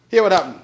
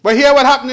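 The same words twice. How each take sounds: First: Said in the usual way. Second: Louder and higher, rousing the house; emphatic call. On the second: Real, not acted. Premier rousing parliament before his point, loud call. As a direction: hammer the hook before the story.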